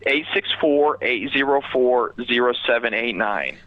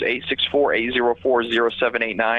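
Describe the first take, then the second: First: The number is said slowly. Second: The number is said fast.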